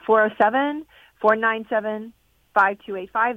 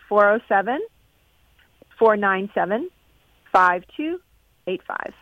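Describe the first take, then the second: First: The number is said at normal speed. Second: The number is said more slowly.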